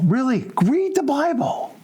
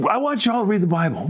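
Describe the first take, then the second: First: Earnest high slow insistence; emphatic plea. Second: Said in the usual way. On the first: Shown as a demonstration. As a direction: "Really, read the Bible." pitched high and drawn out slowly.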